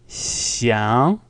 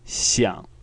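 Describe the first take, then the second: First: The tone rises smoothly without any croakiness. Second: The tone is low, croaky and scratchy. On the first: "the second tone is a smooth sound, not croaky at all. It's more of a smooth rising" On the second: "the third tone. It's kind of like a croaky or a scratchy sound"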